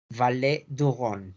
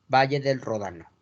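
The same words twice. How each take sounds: First: Valle du Rhône repeated slowly in French; slow French "valé du ghon" for Valle du Rhône; French pronunciation. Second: Said in the usual way. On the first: Shown as a demonstration. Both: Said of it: "Y el Valle del Ródano".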